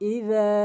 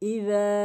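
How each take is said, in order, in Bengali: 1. মধ্যের ব্যঞ্জনটি নরম 'dh' ধ্বনি। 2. মধ্যের ব্যঞ্জনটি নরম 'dh' ধ্বনি।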